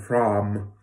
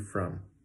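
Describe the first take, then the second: First: The vowel is a rounded 'oh' sound. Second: The vowel is a relaxed 'uh' sound. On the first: The speaker calls it wrong. "you might be saying something like from or from, but both of those are wrong" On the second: The speaker calls it right. "should have the cup of mustard vowel in it, okay? So it should be very relaxed and very easy"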